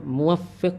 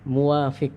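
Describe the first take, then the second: First: The w vowel is short; f is doubled. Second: The w vowel is long; f is single. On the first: The speaker calls it right. "Yang benar adalah muwaffiq dengan apa? Tasydid" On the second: The speaker calls it wrong. "dipanjangkan wawunya"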